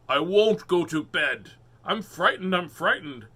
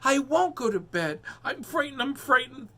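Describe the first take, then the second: First: The line is said in a big, booming voice. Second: The line is said in a small, little voice. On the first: The speaker calls it wrong. "in a voice that was way too big for him" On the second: The speaker calls it right. "This should be a, a different voice"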